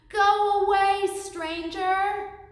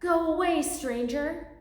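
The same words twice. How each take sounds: First: It is said as loud as possible. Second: It is said a bit louder.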